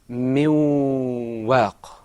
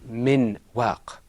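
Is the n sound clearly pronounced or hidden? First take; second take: hidden; clear. First: The n sound is not fully pronounced. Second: The n sound is fully and clearly pronounced. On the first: The speaker calls it right. "The noon is not fully articulated" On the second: The speaker calls it wrong. "in the Qur'an we don't say min waq"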